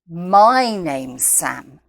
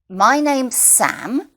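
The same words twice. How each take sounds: First: The stress falls on the word my. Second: The stress falls on the word Sam. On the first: It corrects whose name it is. "It's not her name, it's my name" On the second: It gives the name as new information. "The most important information here is my name"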